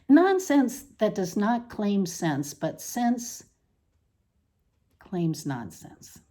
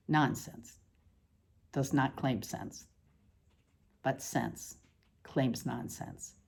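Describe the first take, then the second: First: Said in the usual way. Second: Softly, like an echo; quiet echo. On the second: Acted. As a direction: drop to a hush on the repeat. Repeated line as a soft echo.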